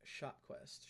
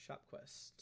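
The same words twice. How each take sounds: First: Said in the usual way. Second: Whispered to herself. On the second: Real, not acted. Repeats name to herself, whispered.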